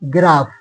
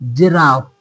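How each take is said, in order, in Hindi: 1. यह hard g ध्वनि से शुरू होता है। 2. यह soft j ध्वनि से शुरू होता है। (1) "गलत हो जाएगा" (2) "जी के बाद आई है"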